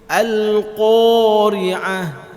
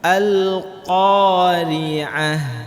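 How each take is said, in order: First: The qaf is said with the lips pushed forward. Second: The qaf is said with the mouth simply open. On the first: The speaker calls it wrong. "dengan memonyongkan mulutnya" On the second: The speaker calls it right. "maka mulutnya cukup dibuka"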